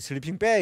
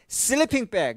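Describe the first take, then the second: First: The stress falls on the word bag. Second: The stress falls on the word sleeping. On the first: The speaker calls it wrong. "이렇게 안 해요" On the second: The speaker calls it right. "이렇게 하지"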